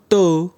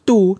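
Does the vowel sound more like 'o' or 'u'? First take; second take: o; u. First: The vowel sounds like 'o'. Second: The vowel sounds like 'u'. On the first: "tapi to" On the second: "bukan tu"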